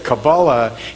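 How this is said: It is said in the Ashkenazic pronunciation.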